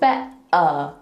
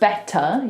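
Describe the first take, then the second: First: The T is replaced by a throat stop. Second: The T in the middle is clearly pronounced. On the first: "you say better" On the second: "instead of saying"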